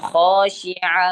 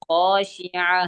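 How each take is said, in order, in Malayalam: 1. ഈ വാക്ക് നിർത്തിയ ഹ ശബ്ദത്തിലാണ് അവസാനിക്കുന്നത്. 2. ഈ വാക്ക് നിർത്തിയ ഹ ശബ്ദത്തിലാണ് അവസാനിക്കുന്നത്.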